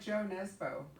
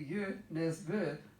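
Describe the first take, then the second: First: The name is said with English sounds. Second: The name is said with Norwegian sounds. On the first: The speaker calls it wrong. "It's like [name]" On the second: The speaker calls it right. "who's really you [name], ... if you don't speak Norwegian"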